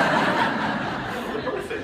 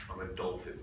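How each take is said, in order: First: Repeating it while cracking up, very slow; laughing. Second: Said in the usual way. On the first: Retold or imitated. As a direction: get the words out through laughter. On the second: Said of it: "She goes".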